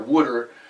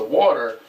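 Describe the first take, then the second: First: It is said in a Philadelphia accent. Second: It is said in a standard accent.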